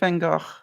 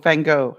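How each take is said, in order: First: The name is pronounced the Dutch way. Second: The name is pronounced the North American way. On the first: "being Dutch, I have to say it the way he would have said it" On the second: "I believe they call it here in North America"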